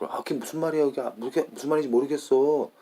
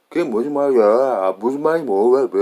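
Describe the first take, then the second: First: Rapid, high-pitched native Korean lilt; Korean people's intonation. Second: Loud, heavily exaggerated American-accented Korean. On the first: Shown as a demonstration. Speaker showing how everybody in Korea talks, quick Korean intonation. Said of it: "That's how Korean, that everybody talks". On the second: Speaker mocking how an American would say it, loud American accent. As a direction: ham up a clumsy American accent, much louder. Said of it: "American would be like".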